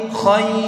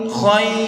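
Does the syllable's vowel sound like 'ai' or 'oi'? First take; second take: ai; ai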